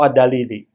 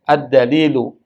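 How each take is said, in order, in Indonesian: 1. Kata itu berakhir dengan vokal i. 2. Kata itu berakhir dengan vokal u. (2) "saya baca ad-dalilu karena dia mubtada"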